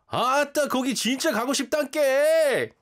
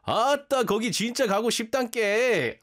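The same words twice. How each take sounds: First: Loud, high, fast Jeolla dialect; Jeolla accent. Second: Loud, high, fast Jeolla dialect quoting ChatGPT; Jeolla accent. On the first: Shown as a demonstration. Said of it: "a way to say it in the Jeolla accent". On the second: Retold or imitated. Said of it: "He's like".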